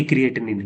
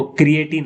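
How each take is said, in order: First: "क्रिएटिनिन" with an extra "nin" ending; mistaken pronunciation. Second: "क्रिएटिन" with a single "tin" ending; correct pronunciation. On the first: Teacher cites what some people say, "क्रिएटिनिन" with an added "nin". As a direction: say "क्रिएटिनिन", adding "nin" after "tin". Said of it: "कुछ लोग क्रिएटिनिन बोलते हैं". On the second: Teacher corrects students on the term, saying "क्रिएटिन" with one final "tin". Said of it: "ना कि क्रिएटिनिन". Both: Shown as a demonstration.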